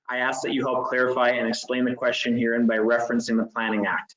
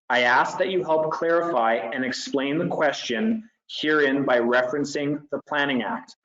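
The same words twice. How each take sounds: First: It is read at a faster pace. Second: It is read at a slower pace.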